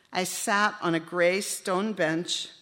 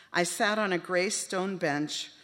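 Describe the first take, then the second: Both takes have the same delivery.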